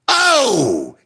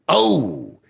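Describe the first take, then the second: First: It is said loudly. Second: It is said at medium loudness.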